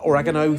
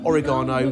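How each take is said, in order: First: The word is said the American way. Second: The word is said the British way.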